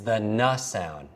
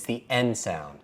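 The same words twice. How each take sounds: First: "N" said as the sound nuh. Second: "N" said as the letter name en. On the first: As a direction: say "N" as nuh, not the letter name. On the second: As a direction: say "N" as en, not nuh. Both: Shown as a demonstration. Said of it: "but I say N".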